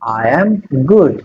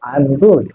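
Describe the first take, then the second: First: 'I am' is said as two full words. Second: 'I am' is shortened into one contracted word. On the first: "এটা তো বইতে লেখা আছে" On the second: "বলার সময় তুমি হয়তো এখানে ... বলতে পারতে যে আই এম গুড"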